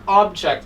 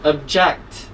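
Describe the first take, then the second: First: The stress is on the first syllable. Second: The stress is on the second syllable. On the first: It is a thing, a noun. The speaker calls it wrong. "this is not object" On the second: It means to refuse or disagree. The speaker calls it right. "The stress is on the second part of the word, second syllable"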